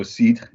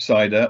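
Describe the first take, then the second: First: Cidre said the French way, "seedr". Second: Said in the usual way. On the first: Shown as a demonstration. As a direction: cidre with French vowels, no English ending. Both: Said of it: "if you prefer".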